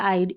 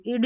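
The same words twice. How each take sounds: First: 'आइड' with the diphthong 'eye' before d; long-i pronunciation. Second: 'इड' with a short i before d; short-i mispronunciation. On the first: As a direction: open 'आइड' out as in slide. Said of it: "I D E को आइड पढ़ते हैं". ('आइड' में आई का स्वर बोलें) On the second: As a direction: keep the vowel short in 'इड'. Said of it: "इड नहीं पढ़ना". ('इड' में छोटी इ बोलें) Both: Shown as a demonstration.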